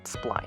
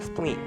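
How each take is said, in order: First: The vowel sounds like 'eye', as in line. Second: The vowel sounds like 'ee', as in spleen.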